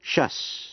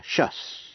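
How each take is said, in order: First: Shus breathed out whispered, sh-uhs. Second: Shus said plainly as sh-uhs; teacher models the ending shus clearly; suffix pronounced shus. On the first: Teacher repeats the suffix for learners, whispered Shus. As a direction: whisper the ending Shus for students to hear the hiss. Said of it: "Phát âm là shus". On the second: Teacher names the sound for students, plain shus. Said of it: "Phát âm là". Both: Shown as a demonstration.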